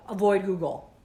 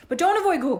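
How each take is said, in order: First: Said in the usual way. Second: Don't punched high and loud; don't said higher and louder; stress on don't. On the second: Real, not acted. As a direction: hit don't hard, then avoid Google. Contradicting herself.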